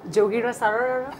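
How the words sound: It is said in an American accent.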